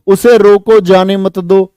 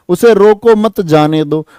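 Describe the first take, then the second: First: उसे रोको as one command, then जाने मत दो; break after रोको. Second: उसे रोको मत as one command, then जाने दो; break after मत. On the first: Teacher shows how punctuation moves, pausing after रोको. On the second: Teacher shows how punctuation moves, pausing after मत. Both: Shown as a demonstration. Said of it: "विराम चिन्ह इधर उधर हो गए".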